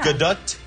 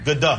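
First: The final T is strong. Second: The final T is weak. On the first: The speaker calls it right. "More T at the end" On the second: The speaker calls it wrong. "The Gadot can be better"

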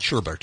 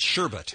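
First: The second syllable has an added r sound. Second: The second syllable has no r sound. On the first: The speaker calls it wrong. "not sherbet" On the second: The speaker calls it right. "It's sherbet, There's no R"

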